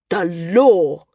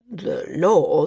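First: Louder, firm demand; the senior flyer demanding the ruling, insistent; insisting. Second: Hesitant, heavy voice; the landsman reluctant to rule, troubled; slow, troubled. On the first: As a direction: cut him off and insist. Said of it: "Corm insisted". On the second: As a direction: weigh the words unwillingly. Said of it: "The landsman's voice was slow, troubled". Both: A narrator's reading.

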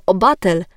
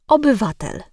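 First: "obatel" with the middle "yw" swallowed; simplified pronunciation. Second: "obywatel" with all four syllables sounded; full pronunciation. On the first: Diction coach giving a favourite error, middle syllable missing in "obatel". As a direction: squash the word down to "obatel". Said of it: "przykład upraszczania wymowy to obatel". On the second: Diction coach showing the careful form, every syllable pronounced in "obywatel". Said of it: "zamiast obywatel". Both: Shown as a demonstration.

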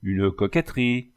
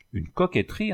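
First: Said in the usual way. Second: Indignant echo. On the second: Acted. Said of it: "interrompit le mercier".

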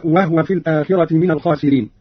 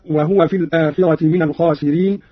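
First: "وهو" said wahwa; Qalun's silent haa. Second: Said in the usual way. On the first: Shown as a demonstration. Teacher showing how Qalun recited it, "وهو" with vowelless haa. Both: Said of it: "قرأ قالون بإسكان الهاء هكذا".

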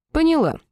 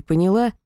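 First: High, chirpy agreement; bright mock compliance. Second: Said in the usual way. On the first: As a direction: answer brightly, playing along. Heroine echoes cheerfully.

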